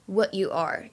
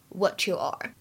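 First: The t and y are said as separate sounds. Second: The t and y blend into a ch sound. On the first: "大家如果读成what you are, What you are 也是没有问题的" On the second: "末尾这里的what 和you 可以做一个音的同化的处理"

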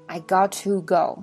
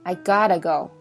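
First: 'Got to' is said as two full words. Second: 'Got to' is blended into one reduced word. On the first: It is less informal. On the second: It is more informal.

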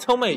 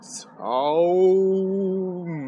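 First: It is said at normal speed. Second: It is said slowly, drawn out.

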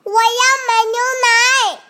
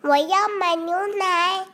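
First: It is shouted loudly. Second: It is said very quietly.

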